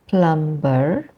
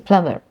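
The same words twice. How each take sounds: First: The B sound is pronounced. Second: The B sound is silent. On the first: The speaker calls it wrong. "we don't say plumber" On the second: The speaker calls it right. "The B is silenced in plumber, so we say plumber"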